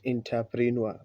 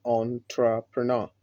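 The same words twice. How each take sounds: First: Entrepreneur as "in-ta-pree-nuer"; the mistaken entrepreneur; wrong way. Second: Entrepreneur as "on-tra-puh-nah"; the model entrepreneur; correct pronunciation. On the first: Retold or imitated. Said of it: "not entrepreneur". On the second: Shown as a demonstration. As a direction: say entrepreneur starting "on", ending "nah". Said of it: "the pronunciation is entrepreneur".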